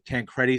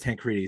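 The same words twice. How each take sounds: First: The name is pronounced the way it is spelled. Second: The name is pronounced differently from its spelling. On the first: The easier pronunciation that matches the spelling. "more phonetically. So like that's how I pronounce it" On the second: The pronunciation used by the other half of the family. "half my family does"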